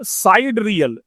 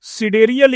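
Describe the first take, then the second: First: The first syllable sounds like 'side'. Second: The first syllable sounds like 'sid'. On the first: "सिडेरियल या साइड रियल दोनों pronunciation कर सकते हैं" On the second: "सिडेरियल या साइड रियल दोनों pronunciation कर सकते हैं"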